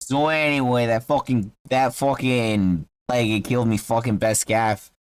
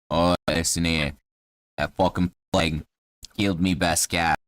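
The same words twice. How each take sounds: First: Put-on Boston accent, aggrieved; Boston halfling. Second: Low-pitched Cockney grumble; Cockney halfling. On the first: Halfling retells his cat's death to a traveller, Boston accent. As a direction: complain like a Bostonian. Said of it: "Yeah, he's from Boston". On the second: Acted. Halfling tells a traveller about the plague, low Cockney voice. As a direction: gripe in a low Cockney accent. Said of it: "'cause he's Cockney".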